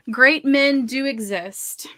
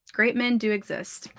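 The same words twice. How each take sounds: First: "Great men do exist" drawn out slowly, higher and stronger; emphatic insistence. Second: Said in the usual way. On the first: Real, not acted. Reassuring viewers about men, "Great men do exist" slow and emphatic. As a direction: stretch and punch each word of "Great men do exist".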